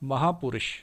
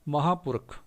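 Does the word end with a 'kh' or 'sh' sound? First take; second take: sh; kh. First: The word ends with a sh sound. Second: The word ends with a kh sound. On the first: This is the Hindi form. "Devanagari ਵਿੱਚ ਉਚਾਰਨ" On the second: This is the Punjabi form. "ਅਗਲਾ ਸ਼ਬਦ ਹੈ"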